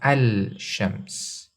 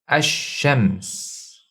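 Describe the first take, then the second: First: The l is pronounced clearly before sh. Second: The l blends into a doubled sh sound. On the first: The speaker calls it wrong. "We don't say al-shams" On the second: The speaker calls it right. "we assimilate the lam into the first letter"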